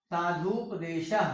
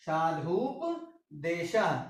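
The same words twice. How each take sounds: First: Said in the usual way. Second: साधुपदेशः drawn out very slowly, each syllable apart; slow demo. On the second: Shown as a demonstration. Teacher to students, slowly sounding out साधुपदेशः. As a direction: stretch साधुपदेशः so the class can follow. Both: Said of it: "इस तरीके से हम इसको".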